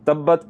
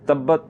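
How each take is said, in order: No difference in how they are said.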